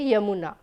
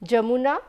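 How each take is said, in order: First: The word begins with a y sound. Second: The word begins with a j sound. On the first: "the variation between j and ya for this particular word in Jamuna or Yamuna" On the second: "the variation between j and ya for this particular word in Jamuna or Yamuna"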